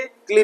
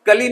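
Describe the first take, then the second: First: क्ली as one syllable; correct ending. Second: कली with a vowel after क; two syllables, क-ली in "कली"; wrong ending. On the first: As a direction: join k and l in "क्ली". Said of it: "क्ली पढ़ेंगे". (सही उच्चारण, "क्ली" एक साथ) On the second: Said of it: "कली नहीं पढ़ेंगे". (गलत उच्चारण, "कली" दो हिस्सों में) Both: Shown as a demonstration.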